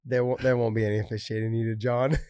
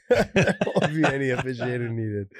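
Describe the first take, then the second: First: Said in the usual way. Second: Laughing through the line. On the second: Real, not acted. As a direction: say it again while laughing. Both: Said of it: "repeats the line laughing".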